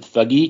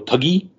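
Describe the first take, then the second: First: It begins with a 'th' sound like thug. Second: It begins with a plain 't' sound. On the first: This is the speaker's habitual way of saying it. "I always pronounce it thuggy because that's where we get the word thug from in English" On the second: This is how the people in the film say it. "But they go tuggy"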